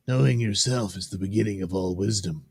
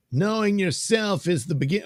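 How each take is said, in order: First: Even comic-book reading in own register; measured character reading. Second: Much higher put-on voice; high character voice. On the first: Acted. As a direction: read it evenly, close to your own voice. Rereads it in the other voice. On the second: Reading a comic balloon aloud, high character voice. Wrong character voice, corrected after oh wait.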